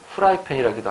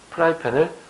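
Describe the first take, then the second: First: The word begins with an h sound. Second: The word begins with a p sound. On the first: The speaker calls it wrong. "안 된다는 얘기입니다" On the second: The speaker calls it right. "피읍으로 적어야 되는데"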